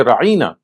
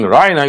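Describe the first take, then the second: First: "ra'ina" twisted to sound like ra-EE-na; distorted pronunciation. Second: Said in the usual way. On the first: Shown as a demonstration. Showing how the word was twisted, "ra'ina" said as ra-EE-na. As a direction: draw out an "ee" in "ra'ina", as ra-EE-na. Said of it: "that you distort the pronunciation". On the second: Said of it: "you distort the pronunciation, you, instead of saying".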